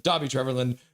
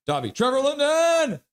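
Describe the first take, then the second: First: Said in the usual way. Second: Rowdy fan cheer; acted hype shout. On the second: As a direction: chant bursting into a high, held yell. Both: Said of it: "Sensei Demo is like".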